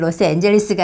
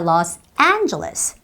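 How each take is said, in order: First: All syllables are given roughly equal weight. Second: One syllable carries a clear strong stress. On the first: The speaker calls it wrong. "로스앤젤레스가 아니라" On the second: The speaker calls it right. "와 같이 강세가 있어요"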